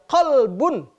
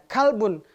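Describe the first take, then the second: First: It starts with a deep back q sound. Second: It starts with a plain k sound. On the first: It means heart. The speaker calls it right. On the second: It means dog. The speaker calls it wrong.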